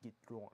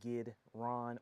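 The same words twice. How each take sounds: First: The name is said with a rolled French R. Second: The name is said with a plain English R.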